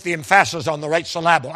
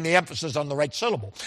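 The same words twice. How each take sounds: First: Second-syllable stress on both "emphasis" and "syllable"; jokingly misplaced stress. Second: Said in the usual way. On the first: Shown as a demonstration. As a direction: say "emphasis" as em-FASS-is and "syllable" as sil-LAB-le. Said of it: "I mean the emphasis on the right syllable". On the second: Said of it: "I mean the emphasis".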